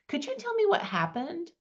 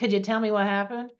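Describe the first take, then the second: First: It sounds curious and friendly. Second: It sounds accusing and harsh.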